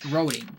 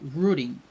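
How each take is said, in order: First: It is said with a non-British pronunciation. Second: It is said with the British pronunciation. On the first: "I was saying roading" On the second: "the U K pronunciation, which is rooting"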